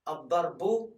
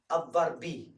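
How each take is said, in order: First: The word ends with a u vowel. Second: The word ends with an i vowel. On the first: "You don't say a, u, e" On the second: "You don't say a, u, e"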